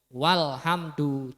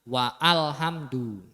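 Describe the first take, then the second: First: It is said smoothly with no break. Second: It is said with a break before 'al'. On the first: The speaker calls it right. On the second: The speaker calls it wrong.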